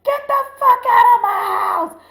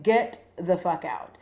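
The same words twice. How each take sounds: First: High, loud, full-out shout; furious yell. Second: Slow, weighted order at normal volume; retold order, each word measured; firm cursing out. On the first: Retold or imitated. Yelling at a grown man while mom listens, furious shout. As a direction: re-enact yelling him out the door. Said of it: "yell at this grown-ass man and be like". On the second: Retelling how she cursed out her date, firm and contained. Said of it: "I'm, like, cursing him out".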